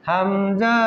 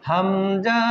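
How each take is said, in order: Both takes have the same delivery.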